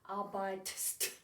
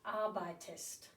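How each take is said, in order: First: The ending follows the stem with no vowel. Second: An extra vowel comes before the ending. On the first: The speaker calls it wrong. "really hard to say" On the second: The speaker calls it right. "which is a lot easier to say"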